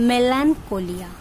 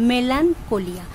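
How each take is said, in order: No difference in how they are said.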